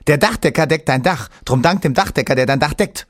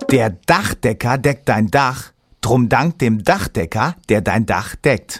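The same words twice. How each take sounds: First: It is said fast. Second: It is said slowly.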